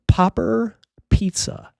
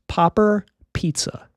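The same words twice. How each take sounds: First: The p sounds make loud bursts of air. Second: The p sounds are clean without air bursts. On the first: "I'm going to turn it off, and you're probably going to hear some plosives and some extra air" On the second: "Now I'm going to turn it on"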